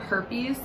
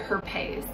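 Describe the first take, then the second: First: The word has its usual English pronunciation. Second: The word is said like a French designer name.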